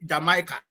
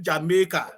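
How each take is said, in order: First: "Jamaica" said juh-MY-kuh; outsiders' pronunciation. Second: "Jamaica" said jah-MEH-kah; island-style "Jamaica", middle vowel as in "may"; local pronunciation. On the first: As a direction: say "Jamaica" with an "eye" in the middle. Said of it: "we don't call it Jama-, Jamaica". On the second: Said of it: "We call it Jamaica". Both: Shown as a demonstration.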